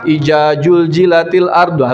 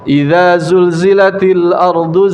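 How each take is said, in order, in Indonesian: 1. Bunyi dz dan z semuanya menjadi j. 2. Bunyi dz dan z tetap dibedakan.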